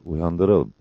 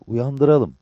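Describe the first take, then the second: First: Lower, level agreement; composed echo of the suggestion; Mehmet. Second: Higher-pitched, decided suggestion; lively comrade making the call; Cabbar. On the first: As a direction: agree evenly and briefly. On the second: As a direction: lift the voice and propose it. Cabbar decides to wake him. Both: A narrator's reading.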